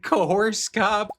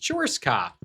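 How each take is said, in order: First: The first word sounds like 'coerce'. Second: The first word sounds like 'chores'. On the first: The speaker calls it wrong. "the text to speech has no idea what to do with that word" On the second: The speaker calls it right. "It's chores cop"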